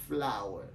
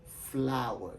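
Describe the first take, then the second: First: "Flower" repeated low, flau-er; English flower. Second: "flower" as flau-er; English flower. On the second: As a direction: model "flower" for the class. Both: Shown as a demonstration. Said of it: "les prononce comme".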